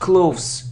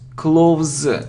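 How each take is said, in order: First: The word ends with a hissing s sound. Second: The word ends with a buzzing z sound. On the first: The speaker calls it wrong. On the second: The speaker calls it right.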